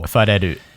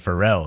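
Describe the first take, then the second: First: The name is said with Japanese sounds. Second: The name is said with English sounds.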